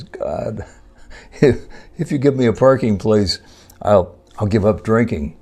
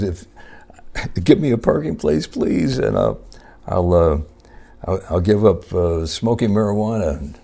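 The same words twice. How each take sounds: First: Raised, earnest bargaining with God, higher and louder; a mock-desperate driver making a deal with heaven; pleading prayer. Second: Higher and pleading, with a begging "please"; hammed-up begging, more frantic than before; desperate pleading. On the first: Man praying to God for a parking space, hammed-up pleading. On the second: Driver still without a spot begs God harder, mock desperation.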